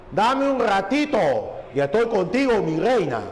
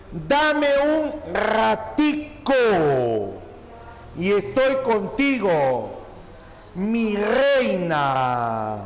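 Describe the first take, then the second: First: Un ligero dejo cubano de La Habana; dejo habanero. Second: Frase leída muy despacio, alargando cada palabra; lectura lenta y marcada. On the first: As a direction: insinuar el acento habanero, sin exagerar. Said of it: "con dejo de La Habana". (un toque de acento de La Habana) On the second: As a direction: recitar el ejemplo despacio, como dictando. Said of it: "se aprecian en la siguiente expresión". (lectura pausada del ejemplo, sin dejo cubano) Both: Shown as a demonstration.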